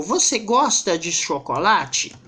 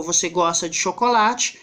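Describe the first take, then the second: First: "Você gosta de chocolate" asked slowly, pitch swinging up on "chocolate"; question intonation. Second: "Você gosta de chocolate" said evenly, falling at the end; statement intonation. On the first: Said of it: "é uma interrogativa? Eu usei meio que a entonação". (entonação interrogativa em "Você gosta de chocolate", mais lenta) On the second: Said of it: "identificar que isso é uma frase afirmativa". (entonação afirmativa em "Você gosta de chocolate", caindo no final) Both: Shown as a demonstration.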